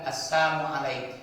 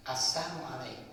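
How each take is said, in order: First: Loud, sneering "Assalamu alaik" with assamu slurred in; mocking twisted greeting. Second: Said in the usual way. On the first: Preacher imitates a man mocking the Prophet, loud and sneering. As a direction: spit out "Assalamu alaik" as a jeer. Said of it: "Orang Yahudi itu mengatakan". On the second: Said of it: "dia memplesetkan kata-kata salam".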